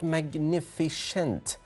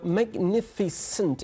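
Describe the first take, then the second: First: The middle consonant is a 'sh' sound. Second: The middle consonant is a plain 's' sound. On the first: The speaker calls it wrong. "There is no sh sound in there" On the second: The speaker calls it right. "There is s sound in there"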